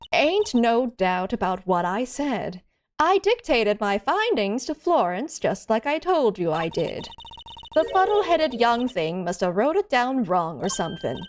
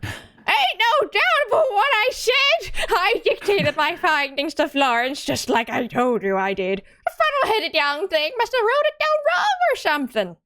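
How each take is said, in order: First: It is said in the speaker's own voice. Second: It is said in a put-on impression voice.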